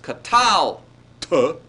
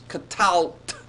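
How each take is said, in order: First: It ends with an extra final vowel syllable. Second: It ends on a consonant cluster, no final vowel. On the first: "not as three syllables" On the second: "but as two syllables"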